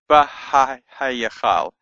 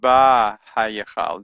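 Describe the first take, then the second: First: It is said slowly with the extra 'ha' syllable. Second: It is said quickly with the 'ha' syllable absorbed.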